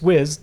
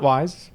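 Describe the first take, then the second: First: The vowel is short, as in 'is'. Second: The vowel is long, as in 'eyes'. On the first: The speaker calls it right. "It's Wiz" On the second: The speaker calls it wrong. "not Wise"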